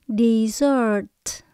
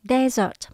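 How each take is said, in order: First: The stress is on the second syllable. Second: The stress is on the first syllable. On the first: It means the sweet course after a meal. "Mình nhấn âm số hai" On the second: It means a dry sandy region. "mình nhấn âm đầu tiên"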